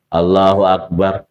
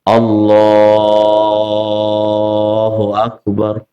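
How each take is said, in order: First: The phrase is said short and quick. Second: The phrase is drawn out long.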